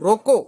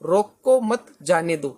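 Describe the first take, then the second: First: The pause comes after the word 'roko'. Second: The pause comes after the word 'mat'. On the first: Stop it; do not let it go. "रोको, यहां पर हम coma लगाए, मत जाने दो" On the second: Do not stop it; let it go. "रोको मत वहां पर कोमा लगाई"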